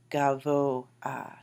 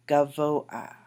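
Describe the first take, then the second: First: Gavoah, VO stressed; stress on the second syllable. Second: Gavoah said louder, VO stressed, a vowel before the final h; stressed, slow model word. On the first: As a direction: lean on the VO in gavoah. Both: Shown as a demonstration. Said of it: "that's where the accent is placed".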